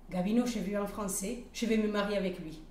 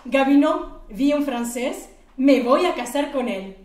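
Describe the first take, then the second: First: Said in the usual way. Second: Loud, higher, thrilled announcement; giddy yelling to her boss that she'll marry him; excited shout. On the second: Acted. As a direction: blurt it out overjoyed. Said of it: "elle dit".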